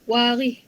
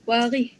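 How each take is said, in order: No difference in how they are said.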